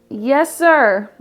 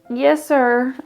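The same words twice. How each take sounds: First: It is said louder. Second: It is said at normal loudness.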